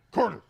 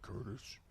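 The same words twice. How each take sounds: First: High, very loud startling yell; sudden shout. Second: Low-key, hushed mock demon. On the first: Retold or imitated. Prankster waking sleeping roommate, sudden high shout. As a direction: yell the name to jolt someone awake. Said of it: "and then we went". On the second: Prankster to sleeping roommate, soft mock demon voice. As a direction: murmur the name like a quiet demon. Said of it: "we started using demon voice".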